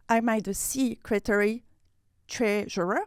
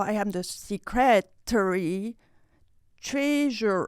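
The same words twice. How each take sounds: First: Secretary as SEE-cretary, broken off before treasurer; unsure emphasis. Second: Secretary as see-CRE-tary, then a separate treasurer; other emphasis. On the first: Learner at weekly networking, testing stress on secretary treasurer. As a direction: try secretary with weight on SEE, then treasurer. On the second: Learner at weekly networking, second stress attempt on secretary treasurer. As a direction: try secretary with weight on CRE, pause, treasurer. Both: Shown as a demonstration. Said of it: "I still don't know".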